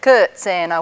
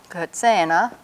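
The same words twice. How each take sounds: First: The stress falls on the first syllable. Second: The stress falls on the long E syllable. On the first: The speaker calls it wrong. "which would be mispronounced" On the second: The speaker calls it right. "It has the accent over here on this long E"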